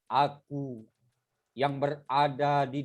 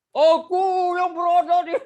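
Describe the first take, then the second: First: It is spoken softly and flatly. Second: It is spoken loudly, like shouting. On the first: The speaker calls it right. "intonasinya datar, lembut" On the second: The speaker calls it wrong.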